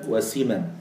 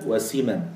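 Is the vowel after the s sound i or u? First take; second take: i; i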